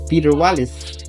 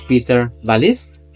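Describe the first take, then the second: First: The surname begins with a w sound. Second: The surname begins with a v sound.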